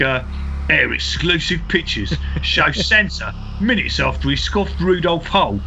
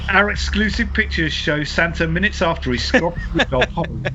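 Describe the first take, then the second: First: It is read in an exaggerated put-on voice. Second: It is read in the speaker's ordinary voice.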